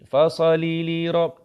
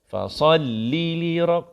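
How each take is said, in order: First: The 'l' sound is rushed and short. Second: The 'l' sound is held a little longer. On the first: The speaker calls it wrong. "Tu laju" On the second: The speaker calls it right. "Kan lambat sikit"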